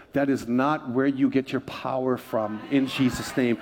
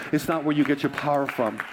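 First: Slowed, weighty, every word leaned on; slow emphatic warning. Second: Said in the usual way. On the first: Real, not acted. Pastor warning the congregation off crystals, slow and emphatic. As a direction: press the warning home slowly. Preacher repeats the warning line.

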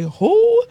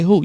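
First: "who" held long on a high, rising pitch; drawn-out WHO. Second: Said in the usual way. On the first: Shown as a demonstration. Preacher corrects how listeners say it, drawn-out rising WHO. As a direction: stretch "who" up high like a probing question. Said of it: "You have to say who?". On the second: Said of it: "You can't just say who".

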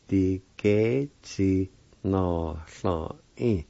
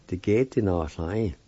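First: "Di ge chi na sla in" slowly, syllables stretched; slow careful pronunciation. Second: Said in the usual way. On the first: Shown as a demonstration. Teacher blending the syllables for learners, "Di ge chi na sla in" slow and drawn out. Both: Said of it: "it's pronounced like this".

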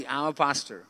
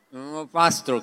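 First: Mumbled behind a covered mouth; reluctant, smothered admission; muffled. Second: Mumbled repeat behind a hand; muffled. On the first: Embarrassed man confessing his job to his doctor, muffled. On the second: Embarrassed patient repeating his job to the doctor, muffled. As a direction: smother the words, reluctant to admit it. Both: Retold or imitated. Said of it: "yo me tapo la boca y yo hago así".

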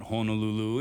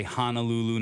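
First: Honolulu said as HOH-no-loo-loo; local pronunciation. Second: Honolulu said as HAH-nuh-loo-loo; mainland pronunciation. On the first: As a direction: round the first vowel of Honolulu to "hoh". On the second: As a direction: open the first vowel of Honolulu to "hah". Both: Shown as a demonstration. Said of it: "not Honolulu".

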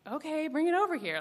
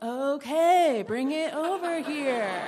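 First: Said in the usual way. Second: Slow, laughing "bring it over here"; laughing reply. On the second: Retold or imitated. [name] repeating her offer, laughing as she retells.

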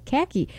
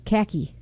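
First: Khaki with a flat a, kha-kee; khaki, the proper Boston way; correcting the vowel in khaki; corrected khaki. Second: Khaki said kah-kee, like car key with no r; Boston khaki for car key. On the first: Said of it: "No, khaki". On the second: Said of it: "That's how you say car key". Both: Shown as a demonstration.

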